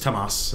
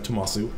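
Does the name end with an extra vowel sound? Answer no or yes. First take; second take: no; yes. First: The name ends without a final vowel. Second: The name ends with an extra final vowel. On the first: "I guess it'd be just Tomas" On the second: "instead of Tomasu"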